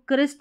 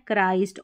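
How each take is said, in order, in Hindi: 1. स्वर छोटे 'i' की ध्वनि है। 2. स्वर लंबी 'eye' ध्वनि है। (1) "इसको क्रिस्ट नहीं पढ़ना है" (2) "आपको पढ़ना है क्राइस्ट"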